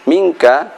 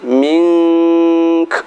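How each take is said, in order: First: The word ends in a full 'a' vowel. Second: A nasal hum, then a breathy hissed k. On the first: The reading continues without stopping. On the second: The reading stops at this word.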